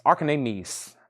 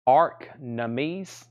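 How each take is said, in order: First: "Archanamis" said with four syllables, Ar-ka-NA-mis; a careful, unsure try at "Archanamis"; unsure pronunciation. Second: "Archnames" squeezed to two syllables, ARK-names, ending in a slight rise; a tentative fix, "Archnames" in two beats; corrected pronunciation. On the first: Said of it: "I can't even say it myself". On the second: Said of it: "A R E K N A M E S". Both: Shown as a demonstration.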